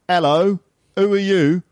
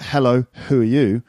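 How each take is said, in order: First: The H sounds at the word starts are dropped. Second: The H sounds at the word starts are pronounced. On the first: "people in London not doing the H sound"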